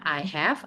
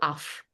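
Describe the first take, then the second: First: It is said as two full words. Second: It is said as one shortened word. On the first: "bisa bacanya I have" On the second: "Kalau mau dipendekin bacanya itu of"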